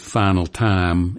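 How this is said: The vowels have a Southern American shape. "someone who says final time"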